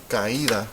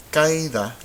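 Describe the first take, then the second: First: Caída in three syllables, ka-EE-da; broken diphthong. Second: Caída run together as two syllables, KAI-da; diphthong mispronunciation. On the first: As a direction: say caída with the stress on a separate í. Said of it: "we want caída". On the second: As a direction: say caída wrongly to rhyme with baile, first syllable stressed. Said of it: "this would be pronounced". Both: Shown as a demonstration.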